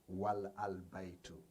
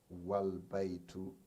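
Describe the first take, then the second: First: The article's vowel is kept after wa. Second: The article's vowel is dropped after wa. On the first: The speaker calls it wrong. "not wal al baitu" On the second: The speaker calls it right. "the phrase is pronounced wal baitu"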